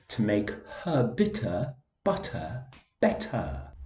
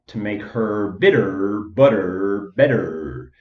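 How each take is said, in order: First: It is spoken in an English accent. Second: It is spoken in an American accent.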